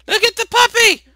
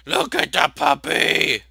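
First: Very high, loud squeal; excited urging. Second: Loud, slow, stretched-out shout; higher-pitched, emphatic slow call; insistent urging. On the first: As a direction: squeal it quickly to grab attention. Urging character to notice puppy. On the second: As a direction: draw out each word loudly, insisting. Repeats it more forcefully, drawn out. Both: Real, not acted.

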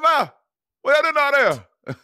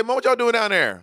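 First: High, loud, slurred mock call; imitating [name]'s holler. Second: High-pitched call, words kept distinct; corrected family call. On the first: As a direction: insist on the exaggerated impression of a co-host. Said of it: "to me, don't sound like that". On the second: Shown as a demonstration. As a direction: show how you really call Mom downstairs. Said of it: "I say".

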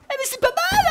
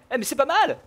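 First: Squeaky high voice. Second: Said in the usual way. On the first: Acted. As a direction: jump way up into a squeaky falsetto. (voix aiguë de fausset) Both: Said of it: "Excusez-moi pour cette voix aiguë".

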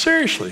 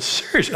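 First: Very high squeal of disbelief; mock astonishment, pitch shooting up then falling; more incredulous. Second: High, disbelieving question; retold astonishment, pitched well up; incredulous. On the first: Pastor turning to the man who hits himself, incredulous. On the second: Pastor reacting to a counselee's wrench story, incredulous.

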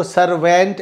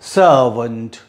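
First: सर्वेंट with a full e vowel; wrong pronunciation. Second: सर्वेंट said low as SUR-vənt with a reduced vowel; correct pronunciation. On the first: Teacher shows students the wrong way, then the right way. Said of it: "इसको सर्वेंट ऐसा नहीं है". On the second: Teacher models the right way after showing the wrong one. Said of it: "इसका pronunciation". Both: Shown as a demonstration.

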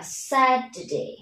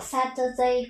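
First: "Saturday" with t softened to d, sa-duh-day; correct pronunciation. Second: "Saturday" with a clear t, sa-tuh-day; wrong pronunciation. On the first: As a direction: turn the middle t of "Saturday" into d. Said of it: "mà sẽ đọc là Saturday". (đọc "Saturday" với âm t thành âm d) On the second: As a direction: keep the t unsoftened in "Saturday". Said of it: "người ta sẽ không đọc". (đọc sai "Saturday" thành "sa-tơ-đây") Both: Shown as a demonstration.

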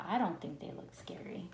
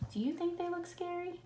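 First: Hushed thinking-aloud whisper. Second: Put-on high, soft question to the kids. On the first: Acted. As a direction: whisper the ninja's thought. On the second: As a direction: ask the children lightly. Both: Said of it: "the ninja's thinking".

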